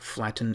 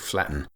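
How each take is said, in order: First: The middle t is clearly pronounced. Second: The middle t becomes a glottal stop.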